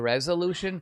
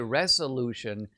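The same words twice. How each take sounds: First: The middle consonant is a buzzing z sound. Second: The middle consonant is a hissing s sound. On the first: The speaker calls it right. "slip in a little bit of z" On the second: The speaker calls it wrong. "with an S"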